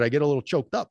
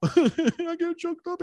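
First: Said in the usual way. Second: Laughing it out, much higher and slowed; half-laughing at his own emotion, pitched way up. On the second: Real, not acted. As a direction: giggle through the words at yourself. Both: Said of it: "I get excited".

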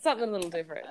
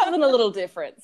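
First: Said in the usual way. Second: Laughing. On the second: Real, not acted. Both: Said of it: "repeated phrase".

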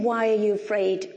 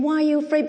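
First: Said in the usual way. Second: Higher and louder, pressing it home; a pleading, heartfelt why; urgent, pleading question. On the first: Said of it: "He's not saying". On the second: Shown as a demonstration. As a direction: ask it as an urgent appeal. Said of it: "He's saying".

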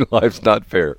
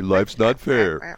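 First: A touch louder, quick motherly retort; mom's verdict. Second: Slow, drawn-out motherly put-down; mom's slow verdict. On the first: Mom repeating her stock answer, a bit louder. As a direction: snap it back like a mom. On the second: Mom answering her whining kid, slow and final. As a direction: lay it down slowly like a tired mom. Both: Retold or imitated. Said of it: "My mom would say".

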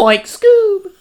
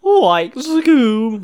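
First: High, loud Shaggy voice through a laugh; Shaggy impression, laughing. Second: High, loud Shaggy voice; Shaggy impression. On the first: Answering his friend with the Shaggy line, high and loud. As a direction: hit Shaggy's line, cracking up. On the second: Friend shows his Shaggy line, high and loud. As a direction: do Shaggy from Scooby-Doo. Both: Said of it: "one line of Shaggy".

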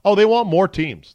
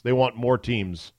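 First: High, loud mock eager whine; mocking coaches. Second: Said in the usual way. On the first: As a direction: parody the greedy coaches. Mimicking greedy coaches wanting more.

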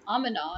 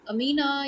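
First: Amina as AH-muh-na, short middle vowel; name variant demo. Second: Amina as uh-MEE-na; long 'ee' in the middle of Amina; familiar name variant. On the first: Teacher stepping between versions of a name, AH-muh-na. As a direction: open first 'ah', weak middle in Amina. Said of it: "you can say Amina". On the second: Teacher starting from the familiar version, uh-MEE-na. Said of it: "if you can say". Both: Shown as a demonstration.

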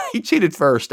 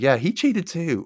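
First: Laughing through the correction, higher; a laugh spills into a higher voice. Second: Said in the usual way. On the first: Real, not acted. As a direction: chuckle as you fix the line. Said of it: "laughing correction of own line". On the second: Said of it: "You're like".

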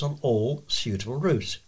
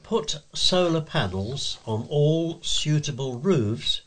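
First: Said in the usual way. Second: Slow, deliberate headline delivery; measured announcer reading a letter's title. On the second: Shown as a demonstration. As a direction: set the title apart, spelling it out slowly.

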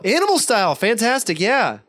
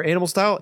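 First: High, gushing echo of an order; mock over-the-top customer-service enthusiasm; overfriendly drive-thru guy. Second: Said in the usual way. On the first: Employee gushingly echoes the order.

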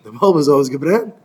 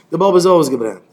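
First: "ausgebrannt?" rising at the end; questioning echo. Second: Said in the usual way. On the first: Acted. Complaint echoed back as a question.

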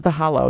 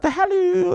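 First: Said in the usual way. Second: Squeaky, very high HOLLOW like hello; high falsetto. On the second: Shown as a demonstration. Podcaster echoing cousin's hello, high falsetto HOLLOW.

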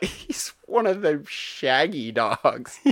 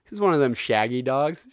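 First: Slow, drawn-out parroting in a put-on voice; imitated mocking repeat. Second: Said in the usual way. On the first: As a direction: echo it back slowly, stretching the words. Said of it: "She's like". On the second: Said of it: "And he's like".

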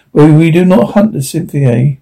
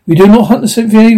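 First: Said in the usual way. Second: Higher and faster, pressing the point; urgent repeated refusal, pitched up; insistent repeat. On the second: A narrator's reading. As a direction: push the refusal harder.

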